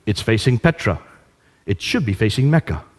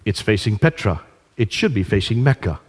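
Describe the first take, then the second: No difference in how they are said.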